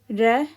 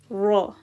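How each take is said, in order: First: The vowel after the r sounds like 'eh'. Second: The vowel after the r sounds like 'ah'. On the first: The speaker calls it wrong. "We don't say re" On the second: The speaker calls it right. "we say ra"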